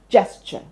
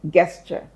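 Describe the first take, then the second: First: It begins with a J sound. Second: It begins with a hard G sound. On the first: The speaker calls it right. "the G in gesture is pronounced as J, not G" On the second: The speaker calls it wrong. "You might be tempted to pronounce this word as gesture"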